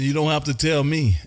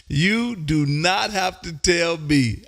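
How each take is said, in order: First: Said in the usual way. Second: Slow, every word of "You do not have to tell me" weighted; emphatic restatement. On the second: Real, not acted. Host agrees Scotch is expensive, slow emphatic "You do not have to tell me". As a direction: spell out "do not" slowly and firmly.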